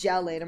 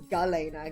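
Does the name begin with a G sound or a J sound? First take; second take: J sound; G sound. First: The name begins with a J sound. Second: The name begins with a hard G sound. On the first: "the hard like j sound ... j I think it's Jelena" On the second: "Or ga ... My other thought it was Galena"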